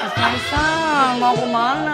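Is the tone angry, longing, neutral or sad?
longing. It is said in a longing, missing-you tone.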